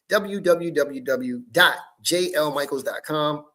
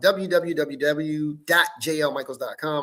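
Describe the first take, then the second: First: It is said at a slower pace. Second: It is said at a quick pace.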